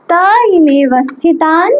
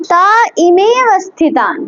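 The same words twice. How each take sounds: First: তা ইমে অবস্থিতান broken into parts, ইমে set apart and rising; split recitation. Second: তা ইমে অবস্থিতান said in one joined breath, stress on ইমে; joined recitation. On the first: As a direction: break তা ইমে অবস্থিতান into pieces, lift ইমে. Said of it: "দুটোকে ভাঙতে". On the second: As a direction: run তা ইমে অবস্থিতান together as one phrase. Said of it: "যদি এটাকে একসাথে না বলতে পারো". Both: Shown as a demonstration.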